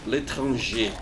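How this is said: It is said with a French accent. "I think the proper pronunciation for that"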